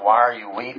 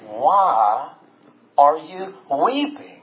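First: The question is asked in a plain, neutral tone. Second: The question is asked with marked emotional tone. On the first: The speaker calls it wrong. "they're not just saying like" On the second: The speaker calls it right. "If I could put the tone in it"

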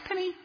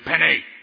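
First: The name is called in a sweet, gentle tone. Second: The name is called in a harsh, angry tone. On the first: "Very nice" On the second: "Mean, angry"

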